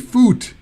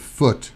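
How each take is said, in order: First: The vowel is a long oo, as in food. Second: The vowel is a short uh sound. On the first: The speaker calls it wrong. "it should be a foot, but we don't say that" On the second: The speaker calls it right. "It's a foot. Uh"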